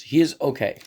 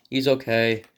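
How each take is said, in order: First: Real voice crack, jumping higher and louder; voice breaking. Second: Said in the usual way. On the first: Real, not acted. Reviewer giving his verdict on the figure, voice breaking. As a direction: let the voice break upward mid-phrase. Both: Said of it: "My voice just broke again".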